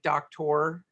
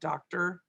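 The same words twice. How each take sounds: First: The last syllable has a full 'or' vowel. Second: The last syllable has a reduced 'er' vowel. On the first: "by saying them the way that the spelling actually is" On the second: "instead of"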